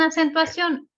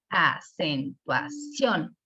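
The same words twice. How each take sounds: First: Said in the usual way. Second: "acentuación" broken slowly into syllables, stress on final CIÓN; very slow a-cen-tua-CIÓN, rising on the last syllable; syllable-by-syllable stress demo. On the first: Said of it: "Y lo mismo en acentuación". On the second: Shown as a demonstration. Teacher helping learners detect the tonic syllable, "acentuación" slowly syllabified, CIÓN stressed. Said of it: "detectamos que la sílaba tónica".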